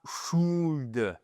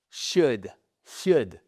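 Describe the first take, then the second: First: "should" with a clear L sound at the end; the wrong way, "should" sounding the L. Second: "Should" said shood, the L silent. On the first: Teacher shows the learners' wrong "should" with L. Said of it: "Et pas should". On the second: Teacher models "Should" for French learners, no L. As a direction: say "Should" with no L, rounded vowel. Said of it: "Comment vous prononcez ce mot?". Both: Shown as a demonstration.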